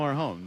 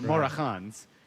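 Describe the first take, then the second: First: The name is said in a normal, casual way. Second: Every syllable of the name is exaggerated.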